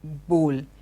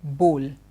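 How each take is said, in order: No difference in how they are said.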